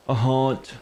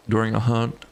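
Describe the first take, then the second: First: "haunt" said with the open aw vowel of haunt; "haunt" said carefully as haunt, not hunt; corrected pronunciation. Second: "hunt" said with a short u vowel, like monster hunt; "hunt" said as hunt, not haunt; mispronounced haunt. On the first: Shown as a demonstration. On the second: Real, not acted. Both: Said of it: "I keep almost saying, like, a hunt".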